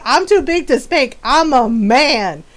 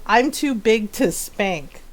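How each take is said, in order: First: Retold cocky boast. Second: Said in the usual way. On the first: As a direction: imitate a brother's cocky declaration. Brother's boast acted out again.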